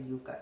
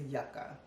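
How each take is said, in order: First: The word is said with a Spanish pronunciation. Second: The word is said with an English pronunciation. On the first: It names a different plant. The speaker calls it wrong. "I pronounced it Yucca because, you know, I'm from Spanish descent" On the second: It names the product's plant. The speaker calls it right. "it's the yucca"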